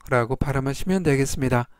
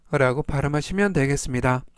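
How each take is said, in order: Both takes have the same delivery.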